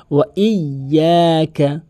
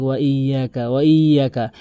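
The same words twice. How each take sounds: First: "ইয়াকা" slow, y held double; correct doubled pronunciation. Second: "ইয়াকা" with a single quick y; common mispronunciation. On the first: Teacher modelling it for learners, slow emphatic tashdid. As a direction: stretch and double the y in "ওয়া ইয়াকা". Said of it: "ওই সেভাবে উচ্চারণ করবেন". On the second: Teacher mimicking most people, quick undoubled pronunciation. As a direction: say "ওয়া ইয়াকা" without doubling. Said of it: "এখানে অধিকাংশ লোক". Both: Shown as a demonstration.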